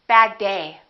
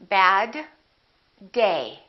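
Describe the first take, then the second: First: The two D sounds are linked together. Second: The two D sounds are pronounced separately.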